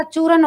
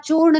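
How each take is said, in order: First: चूरन said as choo-ran, ending in a dental n; corrected form. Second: चूर्ण run together as one syllable, retroflex ending; colloquial form. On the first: Teacher correcting the word for students, चूरन with clear r and n. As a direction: give चूरन two syllables with a clear r. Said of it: "चूरन होता है". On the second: Teacher showing students the rejected form, चूर्ण as one closed syllable. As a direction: say चूर्ण with no vowel before the final sound. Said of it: "यहाँ चूर्ण नहीं होता". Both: Shown as a demonstration.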